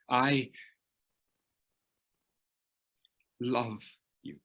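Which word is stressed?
love. The word 'love' carries the strongest stress. Saying the word love is hard and meaningful. "the guy says the L word, love"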